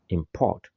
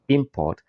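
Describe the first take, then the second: First: It has the stress pattern of the verb. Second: It has the stress pattern of the noun. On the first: The word is a verb. "the verb is import" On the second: The word is a noun. "the noun is import"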